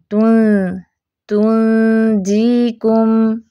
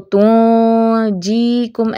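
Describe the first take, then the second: First: तुंजीकुम slow with a light thin ghunna, lips stretched; fine nasal on तुं in तुंजीकुम; light ghunna ikhfa. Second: तुंजीकुम with a thick heavy ghunna, mouth open; the wrong heavy nasal on तुंजीकुम. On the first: (तुंजीकुम बारीक गुन्ना) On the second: (तुंजीकुम मोटा गुन्ना, गलत) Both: Shown as a demonstration. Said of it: "ऐसे नहीं पढ़ना".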